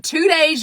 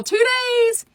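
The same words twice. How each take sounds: First: Said in the usual way. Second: High, sing-out hype; TWO DAYS held high like an announcer's tease; excited call-out. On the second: Real, not acted. Calls out the start date again.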